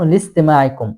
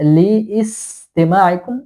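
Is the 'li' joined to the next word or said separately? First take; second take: joined; separate. First: The 'l' runs straight into 'stima' without break. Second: The 'li' is said apart, with 'istima' separate. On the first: The speaker calls it right. "লামটা সিনের সাথে মিলে যাবে" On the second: The speaker calls it wrong. "এরকম হবে না"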